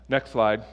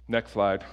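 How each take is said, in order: Both takes have the same delivery.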